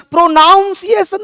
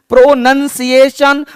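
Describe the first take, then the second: First: प्रोनाउंसिएशन pitched high, with "naun" inside; wrong pronunciation. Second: प्रोनंसिएशन drawn out, "nun" not "noun"; correct pronunciation. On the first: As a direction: show the error प्रोनाउंसिएशन, high on "nown". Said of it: "नहीं". (गलत उच्चारण प्रोनाउंसिएशन, ऊँचे सुर में "नाउन") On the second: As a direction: slowly teach प्रोनंसिएशन with a short "nun". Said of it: "प्रोनाउंसिएशन नहीं". (सही उच्चारण प्रोनंसिएशन, धीरे-धीरे, "नन" बोलकर) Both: Shown as a demonstration.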